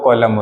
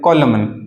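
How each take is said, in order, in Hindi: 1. यह शब्द m ध्वनि पर समाप्त होता है, n नहीं। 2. इस शब्द के अंत में एक सुनाई देने वाली n ध्वनि है। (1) "इसमें जो एन होता है वो क्या होता है, साइलेंट होता है" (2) "अब आप इसको पढ़ेंगे कॉलमन। कॉलमन नहीं"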